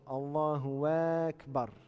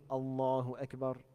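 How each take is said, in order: First: The first vowel of Akbar is drawn out. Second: The first vowel of Akbar is short. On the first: The speaker calls it wrong. "une prolongation" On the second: The speaker calls it right. "il faut qu'elle soit naturelle"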